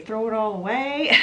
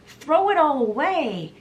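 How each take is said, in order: First: Said in the usual way. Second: Higher-pitched imitated cry to a crowd; mock yell. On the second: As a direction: retell a rousing shout, only moderately raised. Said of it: "he yells out".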